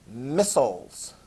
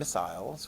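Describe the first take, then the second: First: It is said with an American pronunciation. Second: It is said with a British pronunciation. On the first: "in an American accent ... I pronounced it that way" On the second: "If they're implemented in Britain, I suppose you could call them"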